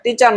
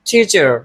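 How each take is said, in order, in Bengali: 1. t উচ্চারিত হয় বাতাসের ঝলক ছাড়া। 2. t উচ্চারিত হয় জোরালো বাতাসের ঝলক সহ। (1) "টিচার নয়" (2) "বলতে আমাদের টিচার, তাহলে ওটা সুন্দর হয়ে গেল"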